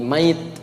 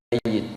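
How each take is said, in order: First: The y sound is short and single. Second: The y sound is held long and doubled. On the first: The person has already died. "kalau sudah meninggal, maka tasdidnya hilang" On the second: The person is going to die. "Jadi kalau belum meninggal namanya mayit... Pelan-pelan"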